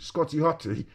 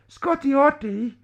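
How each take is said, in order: First: It is said in his normal voice. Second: It is said in a put-on girl's voice.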